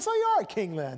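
It sounds mocking and humoring. The asker thinks the other is crazy and humors him. "If he really thought he was loony ... play along"

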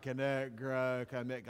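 It is said in a flat, bored way.

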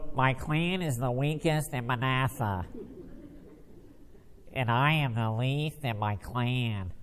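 It is read in a mocking, whiny way.

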